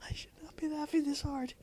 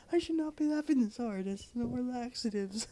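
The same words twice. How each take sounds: First: Laughing whisper. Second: High, voiced through giggles; laughing. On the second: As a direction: squeak it out mid-laugh. Repeated voiced, higher. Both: Real, not acted.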